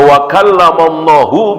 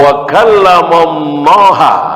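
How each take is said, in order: First: The word Allah ends with a u vowel. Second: The word Allah ends with an a vowel. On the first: God is the one who speaks. The speaker calls it right. "berarti Allahnya sebagai fa'il, pelaku yang berbicara" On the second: God is the one spoken to. The speaker calls it wrong. "Allah sebagai objek, bukan sebagai fa'il"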